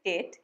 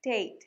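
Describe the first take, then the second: First: ডেট said with a short, unglided vowel; common mispronunciation. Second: ডেট said as "deyt" with a gliding vowel; correct pronunciation. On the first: Teacher showing learners a common mistake, mispronounced ডেট. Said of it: "অনেকে উচ্চারণ করে ডেট". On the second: Teacher correcting a common mistake, careful pronunciation of ডেট. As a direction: say ডেট carefully with a long "ey" glide. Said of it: "কিন্তু এটার উচ্চারণ". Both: Shown as a demonstration.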